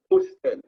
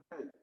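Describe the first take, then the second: First: "hostel" with the old S voiced before the T; S sounded. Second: "Hotel" in French, with no S before the T; no S sound. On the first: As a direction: say "hostel" French-style as os-TEL, S clearly heard. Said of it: "Hotel used to be hostel". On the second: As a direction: say "Hotel" French-style, silent H, no S. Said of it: "it means they took the letter S out". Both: Shown as a demonstration.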